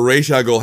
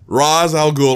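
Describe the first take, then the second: First: "Ra's al Ghul" with "Ra's" as Raysh; alternative pronunciation. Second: "Ra's al Ghul" with "Ra's" as Rahz; alternative pronunciation. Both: Shown as a demonstration. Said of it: "however you wanna pronounce it".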